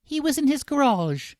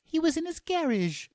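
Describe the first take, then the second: First: High mock Cockney, "garage" stressed on the second syllable; bad Cockney, saying "garage" as guh-RAHZH; high-pitched Cockney caricature with American-style "garage". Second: Very high mock Cockney, "garage" as GARR-idge; bad Cockney with "garage" stressed on the first syllable; squeaky Cockney caricature, British GARR-idge for "garage". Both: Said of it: "[name] has a Cockney accent".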